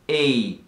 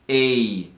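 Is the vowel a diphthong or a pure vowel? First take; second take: diphthong; diphthong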